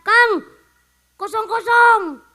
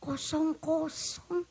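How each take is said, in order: First: Put-on loud, higher call to an old friend; louder mock Eid greeting to an old friend; hearty greeting. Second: A hushed, slow mock echo; quiet repeat. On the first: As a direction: shout it across the room like a buddy. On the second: Shown as a demonstration. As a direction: say it back flatly to let it sink in.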